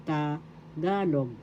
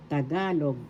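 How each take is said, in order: First: "Tagalog" slowly broken after "Ta", stress on "ga"; slow syllable demonstration. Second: Said in the usual way. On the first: Shown as a demonstration. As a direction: draw out "Tagalog" as ta... GA-log. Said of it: "so that's how it is pronounced". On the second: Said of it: "that's how it is pronounced".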